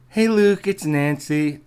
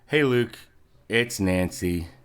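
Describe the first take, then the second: First: It is said in a put-on girl voice. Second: It is said in his normal voice.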